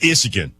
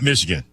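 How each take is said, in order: First: The word is said without its opening M sound. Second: The word is said with its opening M sound.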